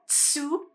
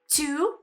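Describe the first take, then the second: First: It starts with a ts sound. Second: It starts with a plain t sound. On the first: The speaker calls it wrong. "not tsu" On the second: The speaker calls it right. "You've got tu"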